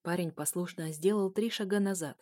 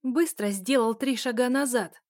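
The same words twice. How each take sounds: First: Said in the usual way. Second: Резкий громкий приказ; рубит команду, ударение на «сделал»; угрожающий приказ. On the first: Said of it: "обычное повествование". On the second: Acted. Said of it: "пригрозила я второму парню". (грозный окрик)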